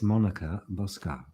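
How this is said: The name is said in a put-on foreign accent. "I need to say it with the right accent"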